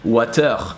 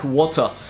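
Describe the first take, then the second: First: The ending is said with a French vowel. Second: The ending is said the standard English way. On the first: "would be changed by er" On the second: "the er at the end of a word"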